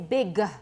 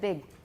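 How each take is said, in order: First: The final g is released with a vowel. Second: The final g is held without release. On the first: "If you release your stops, you say big" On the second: "instead of big"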